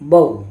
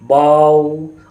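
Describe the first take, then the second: First: The syllable is cut off with a jerk. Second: The vowel is drawn out long. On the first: "ना ही झटका देकर पढ़ना है" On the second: "इसको खींचकर भी नहीं पढ़ना है"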